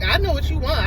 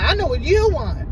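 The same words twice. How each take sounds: First: KNOW pushed up high in a mock argument; stress on KNOW. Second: YOU punched high and loud; stress on YOU. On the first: Boyfriend arguing back at girlfriend, stress on KNOW. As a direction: lean on the word "know". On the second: Retold or imitated. Boyfriend arguing back at girlfriend, stress on YOU. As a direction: throw the accusation onto the word "you". Same line repeated, stress moved.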